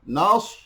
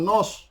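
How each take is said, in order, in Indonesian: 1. Vokalnya terdengar seperti a terbuka. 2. Vokalnya terdengar seperti o bulat. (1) "Dia huruf sad, tebal. Nas" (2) "bukan nos"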